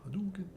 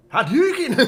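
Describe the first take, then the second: First: High little mock battle cry; small, high-pitched pretend attack; half-hearted game call. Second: High, very loud Scottish battle cry; hammed-up Scottish-accented yell; Scottish accent shout. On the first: Game move call, first small attempt. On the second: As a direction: bellow a game attack in mock Scottish. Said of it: "Hadouken with a Scottish accent".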